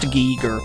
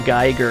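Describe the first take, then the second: First: The first vowel sounds like 'ee'. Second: The first vowel sounds like 'eye'. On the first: The speaker calls it right. "I assume it's pronounced Giger" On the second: The speaker calls it wrong. "I've always been saying H R Geiger, because that's how it looks to me"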